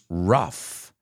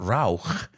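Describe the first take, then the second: First: The word ends in a clear F sound. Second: The word ends in a throaty, guttural sound. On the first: The speaker calls it right. "They sound like an F sound" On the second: The speaker calls it wrong. "It's not rauch"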